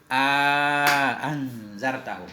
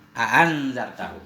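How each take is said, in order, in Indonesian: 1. Vokal di antara dua hamzah itu dipanjangkan. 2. Vokal di antara dua hamzah itu pendek. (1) "ada amatnya" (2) "meninggalkannya alif"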